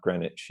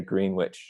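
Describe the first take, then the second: First: It is said the refined, cultivated way. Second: It is said the plain local way. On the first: This is the more refined way others say the name. "not Greenwich ... We're still not cultivated like that" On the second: This is how people upstate say the name. "we say Greenwich"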